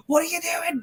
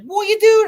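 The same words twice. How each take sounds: First: High, breathless horrified question; stunned disbelief. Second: High, loud alarmed shout; shocked yell. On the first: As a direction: gasp the question out in horror. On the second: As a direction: yell it at him in horror. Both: Retold or imitated. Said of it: "I was like".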